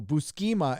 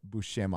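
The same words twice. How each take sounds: First: The middle of the name has a plain s sound. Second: The middle of the name has a sh sound. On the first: This is the childhood mispronunciation. The speaker calls it wrong. "what I called him when I was a kid" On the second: This is the believed correct pronunciation. The speaker calls it right. "It's Bush Buscema, I think"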